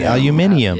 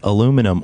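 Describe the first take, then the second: First: It is said the British way, five syllables. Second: It is said the American way, four syllables.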